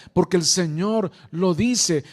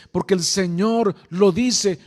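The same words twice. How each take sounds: The two takes are said the same way.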